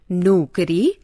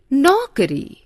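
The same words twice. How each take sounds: First: नौकरी said as "nukri" with an "u"; wrong pronunciation. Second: नौकरी said as "naukri" with a full "au"; correct pronunciation. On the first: Teacher showing students the mistaken form, with u instead of au. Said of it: "अशुद्ध". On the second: Teacher modelling the right form, with a full au. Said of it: "शुद्ध". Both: Shown as a demonstration.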